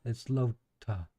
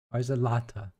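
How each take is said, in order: First: "Lota" said as LOH-tuh, long o; "Lota" with a long o as in boat. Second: "Lotta" said as LAH-tuh, open short a. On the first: Streamer testing the name aloud, "Lota" with a long o. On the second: Streamer asking chat about the name, "Lotta" with an open short a. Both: Shown as a demonstration. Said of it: "Is it Lotta or Lota?".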